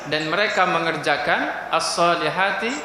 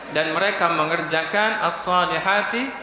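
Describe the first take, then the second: The two takes are said the same way.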